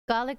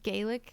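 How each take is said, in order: First: The first vowel sounds like the one in garlic. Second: The first vowel sounds like the word gay. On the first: The speaker calls it right. "like garlic" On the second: The speaker calls it wrong. "not like Gaelic"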